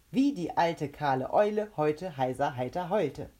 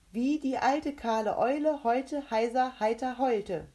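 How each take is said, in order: First: Loud, fluent recital at natural pitch; without faltering. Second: High, loud tongue-twister challenge; challenger's character voice. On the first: The mouth repeats Rebecca's twister easily, fluent and unfaltering. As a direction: rattle off "Wie die alte kahle Eule" without a stumble. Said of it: "sagte es dreimal, ohne zu stocken". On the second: Rebecca sets the mouth a tongue twister, high and loud. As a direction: pitch it up and enunciate clearly. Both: A narrator's reading.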